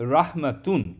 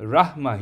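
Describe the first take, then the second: First: The word ends with the full -atun ending. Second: The word ends in -a, without -tun. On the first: The full case ending is shown to make the pattern clear. "মাজদারের শেষের অক্ষরে হারাকাতগুলো উচ্চারণ করব" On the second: This is the usual everyday reading. "সাধারণত আমরা পড়ব রাহমা হিসেবে"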